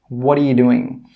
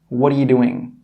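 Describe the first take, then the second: The two takes are said the same way.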